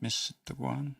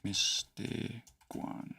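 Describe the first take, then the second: First: "Mistaguan?" said softly with a questioning lift. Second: "Mistaguan" very slow and soft, syllable by syllable; sounding out slowly. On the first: Real, not acted. Teacher checking his own spelling, softly questioning "Mistaguan". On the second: Shown as a demonstration. Teacher working out the spelling, slowly sounding out "Mistaguan". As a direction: stretch "Mistaguan" into separate quiet syllables. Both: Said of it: "am I spelling it".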